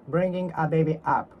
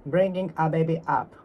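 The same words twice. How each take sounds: The two takes are said the same way.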